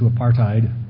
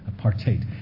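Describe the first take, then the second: First: The word is said in its common American form. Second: The word is said in its original, non-American form. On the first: "In our common American linguistics, we've turned it to apartheid" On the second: "the proper pronunciation is apartheid"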